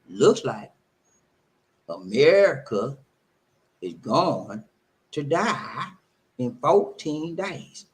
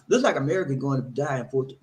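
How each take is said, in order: First: It is read very slowly. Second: It is read at a normal pace.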